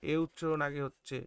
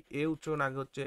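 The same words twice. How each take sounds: The two takes are said the same way.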